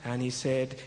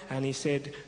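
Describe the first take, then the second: No difference in how they are said.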